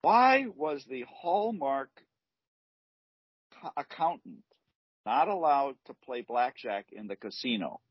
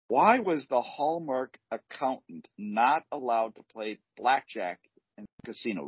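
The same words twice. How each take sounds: First: Telling a dad joke. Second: Said in the usual way. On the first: Shown as a demonstration. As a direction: stretch the riddle for effect.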